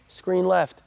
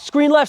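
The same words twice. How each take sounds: First: It is said quietly without projecting the voice. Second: It is called out loudly with a projected voice. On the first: The speaker calls it wrong. "You don't wanna be quiet and just say screen left" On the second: The speaker calls it right. "you call out screen left"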